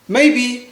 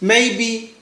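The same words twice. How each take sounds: The two takes are said the same way.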